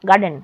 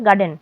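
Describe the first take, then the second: First: The r sound before the d is silent. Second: The same.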